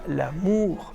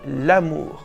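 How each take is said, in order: First: The stress is on the last syllable. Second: The stress is on the first syllable. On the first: The speaker calls it wrong. "vous ne dites pas l'amour" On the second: The speaker calls it right. "mais vous dites l'amour"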